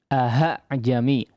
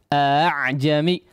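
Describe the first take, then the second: First: The second hamzah is replaced by an h sound. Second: The second hamzah is a softened glottal catch. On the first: The speaker calls it wrong. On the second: The speaker calls it right.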